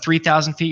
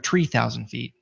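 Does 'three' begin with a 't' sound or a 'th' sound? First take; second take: th sound; t sound. First: The first word begins with a 'th' sound. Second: The first word begins with a plain 't' sound. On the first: "instead of three thousand feet" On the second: "you'll hear"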